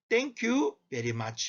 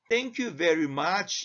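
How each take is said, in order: First: It is said in a Filipino English accent. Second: It is said in a standard English accent. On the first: "필리핀 사람들은 Thank you very much 이렇게 말합니다" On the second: "영어에서는 Thank you very much 이렇게 말을 할 수 있지만"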